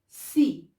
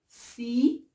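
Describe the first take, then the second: First: It begins with a soft S sound. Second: It begins with a soft S sound.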